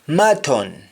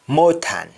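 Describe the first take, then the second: First: It is said with a standard English accent. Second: It is said with a Jamaican accent.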